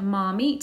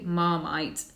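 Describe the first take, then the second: First: It is said with an Italian-style pronunciation. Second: It is said with a British English pronunciation. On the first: The speaker calls it wrong. "as my ex-Italian boyfriend said" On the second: The speaker calls it right. "It's actually Marmite"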